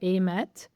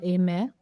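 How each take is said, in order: First: The name ends with a T sound. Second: The name ends without a T sound.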